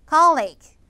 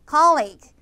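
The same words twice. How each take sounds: The two takes are said the same way.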